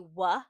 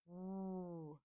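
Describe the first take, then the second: First: The w sound is followed by a vowel. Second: The w sound is said bare, without a vowel. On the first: The speaker calls it wrong. "W does not say w. ... You're adding in a vowel sound" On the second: The speaker calls it right. "W actually says w"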